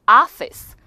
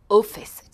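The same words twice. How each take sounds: First: "office" opening on a loud "ah"; American O. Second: "office" with rounded "o"; British O. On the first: Teacher shows American vowel, "office" as ah-fis. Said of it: "미국 사람들은 왠지". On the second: Teacher shows British vowel, "office" as o-fis. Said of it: "오 발음에 가깝게 해서". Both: Shown as a demonstration.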